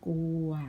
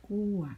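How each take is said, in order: First: The word is said with a mid tone. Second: The word is said with a falling tone.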